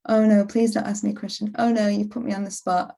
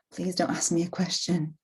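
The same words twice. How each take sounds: First: Mock panicky plea. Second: Soft, nervous inner plea; hope nobody calls on you; quiet plea. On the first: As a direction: blurt it out in a rush. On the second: Retold or imitated. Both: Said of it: "inner voice in the meeting".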